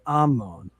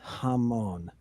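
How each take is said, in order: First: The word begins with no h sound. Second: The word begins with a breathy h sound. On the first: The speaker calls it right. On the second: The speaker calls it wrong.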